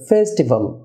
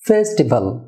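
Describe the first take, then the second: First: The first syllable is stressed. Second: The first syllable is not stressed. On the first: The speaker calls it right. "ফেতে stress হবে" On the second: The speaker calls it wrong. "Festival আমরা অনেক সময় বলে থাকি, এটা festival না"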